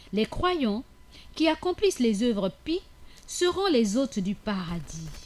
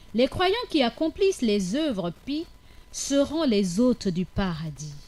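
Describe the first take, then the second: Both takes have the same delivery.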